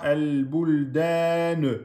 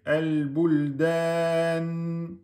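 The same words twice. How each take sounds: First: The final n is released with a bouncing echo. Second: The final n is held closed without an echo. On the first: The speaker calls it wrong. "Ne dites pas el-buldan, ne" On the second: The speaker calls it right. "Vous bloquez et vous laissez finir"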